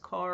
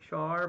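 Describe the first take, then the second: First: The name starts with a hard K sound. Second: The name starts with a CH sound. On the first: "I don't know if it's Car or Char" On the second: "when I think of Char, I think of burning"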